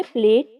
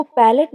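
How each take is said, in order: First: प्लेट run together as one syllable, "plate"; mistaken pronunciation. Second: पैलेट in two syllables, "PAL-et"; correct pronunciation. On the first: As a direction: say प्लेट with p and l joined. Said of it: "प्लेट नहीं बोलना". (प्लेट, "प" और "ल" जोड़कर एक साथ) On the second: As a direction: say पैलेट with a vowel between p and l. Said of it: "लफ्ज को पैलेट बोलना है". (पैलेट में "पै" और "लेट" दोनों बोलें) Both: Shown as a demonstration.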